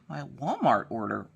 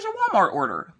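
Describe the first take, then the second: First: Quietly echoing the word Walmart order in confusion; disbelieving echo. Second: Chirpy repeat. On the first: Real, not acted. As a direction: say it in stunned disbelief. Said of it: "How the hell?". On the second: Retold or imitated. Courier repeats the order.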